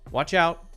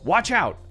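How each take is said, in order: First: It is said in a calm, neutral tone. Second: It is said louder, in an angry tone. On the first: A plain request to make way. "is more neutral" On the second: It could come across as rude. "louder and sounds a little bit more angry"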